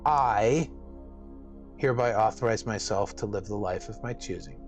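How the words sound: The word "I" is stressed.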